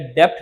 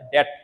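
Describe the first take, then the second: First: A b sound is heard before the t. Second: No b sound is heard before the t. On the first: The speaker calls it wrong. "ये डेप्ट नहीं है" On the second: The speaker calls it right. "इसको बोलता है डेट, ... बी जो है silent रहता है"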